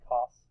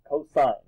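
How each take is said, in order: First: The word is cut short to one syllable. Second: The full word is said with two syllables. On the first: The speaker calls it wrong. "don't say cos" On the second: The speaker calls it right. "say cosine"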